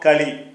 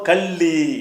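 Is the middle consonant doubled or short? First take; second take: short; doubled. First: The middle l sound is short and light. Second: The middle l sound is pressed and doubled. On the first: "முதல் சொன்னது களி" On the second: "அந்த இல்ல அழுத்தி செய்கிறோம்ல"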